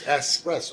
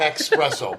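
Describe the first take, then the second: First: The word begins with an 'es' sound. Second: The word begins with an 'ex' sound. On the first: The speaker calls it right. "It's espresso" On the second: The speaker calls it wrong. "it's not espresso, man. There's no X in the word"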